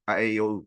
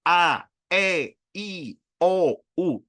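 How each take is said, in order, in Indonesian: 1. Vokalnya tidak jelas, mulut hampir tidak terbuka. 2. Vokalnya jelas, mulut terbuka lebar. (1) "Jadi nggak cuma sekedar" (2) "Buka yang lebar"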